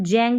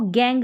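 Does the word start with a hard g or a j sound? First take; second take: j sound; hard g. First: The word starts with a j sound. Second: The word starts with a hard g sound. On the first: The speaker calls it wrong. "हमने इसको जैंग नहीं पढ़ा" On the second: The speaker calls it right. "जी को ग pronounce करेंगे"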